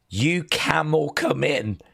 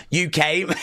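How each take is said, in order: First: "You camel come in" read with camel, not came; reading "camel" as one word; misread line. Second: "You came" with came said plainly, laughing; corrected reading. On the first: Reading the story aloud, misreading "You came" as camel. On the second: Fixing his misreading of the story, laughing. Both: Shown as a demonstration. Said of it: "Oh, no, sorry".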